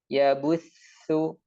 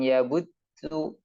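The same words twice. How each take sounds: First: Air keeps flowing through the doubled t sound. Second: The doubled t sound stops the airflow completely. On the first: The speaker calls it right. "jadi tetap ya butsu" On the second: The speaker calls it wrong. "bukan di dibuntu, bukan ya butsu"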